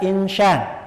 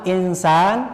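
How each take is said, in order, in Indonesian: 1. Konsonan di tengah itu bunyi sh. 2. Konsonan di tengah itu bunyi s biasa. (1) "tidak insyan" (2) "yang pertama insan tidak insyan"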